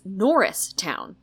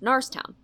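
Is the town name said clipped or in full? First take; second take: full; clipped. First: The name is said with all its syllables. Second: The name is clipped in a local accent. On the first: "the way it's spelled to make sense" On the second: "of course, pronounced Narstown"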